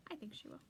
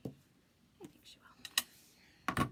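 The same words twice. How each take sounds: First: Said in the usual way. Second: A slow, breathless whisper, almost to herself; slow tender whisper. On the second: Real, not acted.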